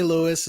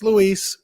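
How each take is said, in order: First: The name is said with English pronunciation. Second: The name is said with Spanish pronunciation. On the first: This is how other people usually say the name. The speaker calls it wrong. "I always get the hey Lewis" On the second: This is the name's real form. The speaker calls it right. "it's Luis"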